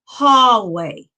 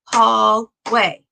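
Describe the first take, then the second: First: Said in the usual way. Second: "hallway" broken in two, hall, pause, way; split into syllables. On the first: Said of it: "Our next word is hallway". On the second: Shown as a demonstration. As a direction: clap out "hallway" as two separate beats, hall and way. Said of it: "We had two claps".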